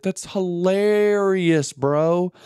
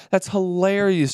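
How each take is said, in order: First: Slow, higher and stretched like a laugh; the joke still tickling him; drawn-out amusement. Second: Said in the usual way. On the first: Real, not acted. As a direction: savour the word hilarious. Marvelling at the drunk survival story.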